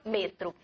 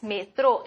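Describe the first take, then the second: First: "metro" said the Spanish way, lower and softer, with a falling end; Spanish pronunciation. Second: "metro" said the Portuguese way, with a rising end; Portuguese pronunciation. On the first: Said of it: "En español". ("metro" con pronunciación española, más grave y suave, final descendente) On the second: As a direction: say "metro" like a Brazilian. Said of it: "En portugués". ("metro" con pronunciación portuguesa, entonación ascendente) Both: Shown as a demonstration.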